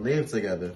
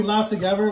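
First: "live" said to rhyme with "give"; corrected LIVE. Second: "live" said to rhyme with "five"; misread LIVE. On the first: Shown as a demonstration. Correcting a friend's reading of a viewer's question, "live" rhyming with "give". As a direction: say "live" with a short i, as in living somewhere. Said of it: "I think he meant live together". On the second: Real, not acted. Reading a viewer's question to the group, misread "live" as rhyming with "five". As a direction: say "live" with a long i, as in live broadcast.

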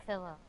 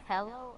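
First: "pillow" with a short i, as PIL-oh; pillow pronunciation. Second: "pillow" with an eh, as PEL-oh; pellow pronunciation. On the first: Kid polling friends on pronunciation, "pillow" as PIL-oh. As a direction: say "pillow" as PILL-oh. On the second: Kid polling friends on pronunciation, "pillow" as PEL-oh. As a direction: say "pillow" as PELL-oh. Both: Shown as a demonstration. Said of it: "Do you say pillow or pillow?".

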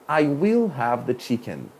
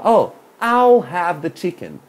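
First: "I will" said as two separate words; full I will. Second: "I'll" run together as one short syllable; contracted I'll. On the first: Teacher contrasting it with the full form, "will" spelled out. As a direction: say "I will" in full, slowly, stress "will". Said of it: "Em vez de falar, "I will". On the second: Teacher ordering chicken, showing the contracted "I'll". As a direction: squeeze "I'll" into one quick sound, unstressed. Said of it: "Olha como é que eu tô falando aqui". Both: Shown as a demonstration.

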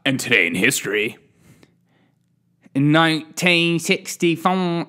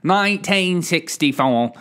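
First: Mock English accent for the date; playful English accent. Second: Mock English accent on the date; playful English accent. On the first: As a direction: announce it like a plummy Brit. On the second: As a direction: say the year like a proper Brit. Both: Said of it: "I do an English accent every time for a date".

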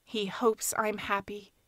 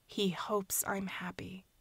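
First: Said in the usual way. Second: Breathless whispered echo, fading away. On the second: Acted. Niece echoing the man's song to herself, whispered. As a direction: let it die to a whisper.

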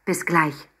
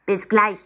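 First: Said in the usual way. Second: Higher, louder squeaky echo of Bis gleich; a hidden penguin parroting Bis gleich from the backpack; penguin echo call. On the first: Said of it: "Mama umarmte sie". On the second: Acted. Hidden penguin echoes Mama from the backpack, squeaky high call. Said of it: "rief es aus dem Rucksack".

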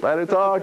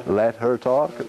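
First: Said in the usual way. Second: Slow plea. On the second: Retold or imitated. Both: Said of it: "go over to them and say".

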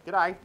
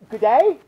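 First: Cop's Aussie greeting; short G'day in a broad Australian accent. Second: Very loud, high rising question; hammed-up disbelief; incredulous repeat. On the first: Acted. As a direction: say it like an Aussie cop. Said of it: "Is he Australian?". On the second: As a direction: throw the word back in mock outrage. Baffled repeat of the Aussie greeting.

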